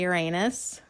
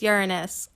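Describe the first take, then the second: First: It uses the common, less refined pronunciation. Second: It uses the classier, more refined pronunciation. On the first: The speaker calls it wrong. "wants to always say Uranus?" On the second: The speaker calls it right. "Class it up, folks. It's Uranus"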